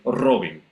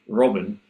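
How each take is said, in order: First: The r is rolled with a trill. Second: The r is an English r, not rolled. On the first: The speaker calls it wrong. "they roll and they say Robin" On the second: The speaker calls it right. "the r sound, as in my name"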